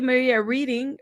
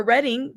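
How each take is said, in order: First: Reading said with a long ee, like reading a book; first guess at Reading, long first vowel; Reading as REE-ding. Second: Reading said with a short e, like the colour red; Reading as RED-ing. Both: Real, not acted. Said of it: "or Reading".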